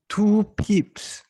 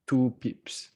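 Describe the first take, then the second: First: Mock shocked exclaim. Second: Said in the usual way. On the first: Repeats stop size in mock shock.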